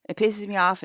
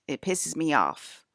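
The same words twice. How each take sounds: First: Higher and louder on "It pisses me off"; louder, higher repeat. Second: Said in the usual way. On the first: Real, not acted. Repeating her complaint about the yearly dream, louder and higher. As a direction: punch it out the second time, fed up.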